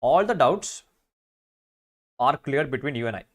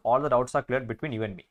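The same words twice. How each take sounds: First: Slow, deliberate wrong answer; slow reading of the wrong version. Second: Slow, careful corrected sentence; slow corrected reading. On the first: Teacher reading out the wrong option for the class, slowly. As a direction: read it out slowly to show the mistake. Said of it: "You and I അല്ല". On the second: Teacher reading the corrected sentence to students, slowly. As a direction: read the fixed version slowly. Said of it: "you and me എന്ന് പറയണം". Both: Shown as a demonstration.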